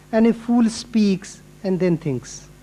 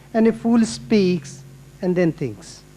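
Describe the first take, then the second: No difference in how they are said.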